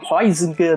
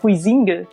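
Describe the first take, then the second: First: The name is said in a non-Brazilian way. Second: The name is said the usual Brazilian way.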